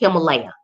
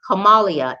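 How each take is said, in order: First: The name is said the American way. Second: The name is said the Indian way.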